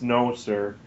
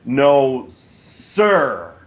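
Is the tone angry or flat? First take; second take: flat; angry. First: It is said flatly with no emphasis. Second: It is said angrily with strong emphasis. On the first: "he just says" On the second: "angry way, like just like emphasize it a little bit"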